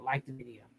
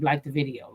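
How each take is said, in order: First: Like the video dropped to a near-whisper echo; soft echo. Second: Said in the usual way. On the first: Shown as a demonstration. Asking viewers to like, softly echoed.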